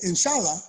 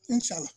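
First: It is said in a firm, assured tone. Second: It is said in a brushing-off, dismissive tone. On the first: It will definitely happen. "means it's gonna happen. This is God's will, it will happen" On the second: It will never happen. "which means forget about it. It will never happen"

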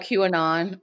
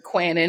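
First: The Q is said as the letter name. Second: Q blends into one word like kwanon.

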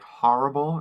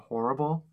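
First: It is said with an East Coast accent. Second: It is said without an East Coast accent. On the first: "saying, like, horrible" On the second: "instead of horrible"

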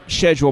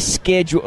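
First: The word is said in a British way. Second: The word is said in an American way. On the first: "I picked it up from Doctor Who or some other BBC show on PBS" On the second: "it hurts coming out of my mouth to say schedule"

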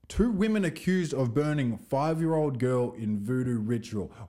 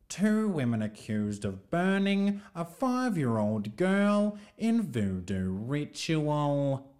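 First: It is read in the speaker's normal voice. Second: It is read in a BBC newsreader voice.

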